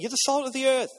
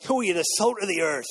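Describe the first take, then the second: First: Said in the usual way. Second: Hammed-up pirate voice, lightly done. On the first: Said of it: "Turn to the person next to you and say". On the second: Shown as a demonstration. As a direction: growl it out like a playful pirate. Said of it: "Say it in a pirate voice".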